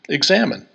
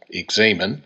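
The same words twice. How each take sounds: First: The word sounds like the English word examine. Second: The middle vowel is a long A sound. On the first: "others simply pronounce it like our English word" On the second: "Some pronounce it using a long A in the middle"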